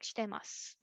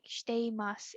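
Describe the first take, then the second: First: The vowel i after shite is dropped. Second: The vowel i after shite is pronounced. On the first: "It sounds like shitemasu" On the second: "it doesn't sound sound like shiteimasu"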